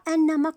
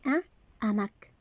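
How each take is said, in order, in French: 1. Le son n se lie à « hamac ». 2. Le son n reste séparé de « hamac ». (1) "on ne dit pas un hamac, on ne fait pas la liaison" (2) "On dit un hamac"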